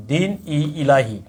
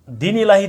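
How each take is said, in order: First: Slow, drawn-out দিন ই ইলাহি; slow spelled out. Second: Said in the usual way. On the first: Shown as a demonstration. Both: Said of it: "কি নাম?".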